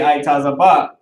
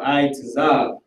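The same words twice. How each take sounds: First: "I, taza, ba" said as eye-TAH-zuh-BAH; alternative pronunciation. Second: "I, taza" said slowly as eye-tuh-ZAHB; first pronunciation option. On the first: Teacher offering another possible reading, "I, taza, ba" as eye-TAH-zuh-BAH. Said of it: "depending on the pronunciation". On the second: Teacher offering a root word's pronunciation, "I, taza" as eye-tuh-ZAHB. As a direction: say "I, taza" with a weak "tuh" and stressed final "zahb". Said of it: "Or it could be". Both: Shown as a demonstration.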